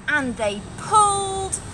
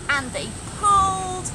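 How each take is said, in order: Both takes have the same delivery.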